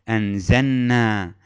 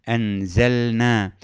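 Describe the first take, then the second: The two takes are said the same way.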